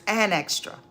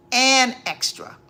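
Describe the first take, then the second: First: Said in the usual way. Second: And extra said much louder, the and hit hard; emphatic repeat. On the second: Real, not acted. To viewers about God's blessings, loud emphatic repeat.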